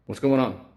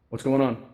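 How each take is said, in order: Both takes have the same delivery.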